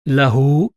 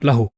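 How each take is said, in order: First: The final vowel is held long. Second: The final vowel is cut short. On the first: The speaker calls it right. "The main rule is that you pronounce it lahu" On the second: The speaker calls it wrong. "not lahu"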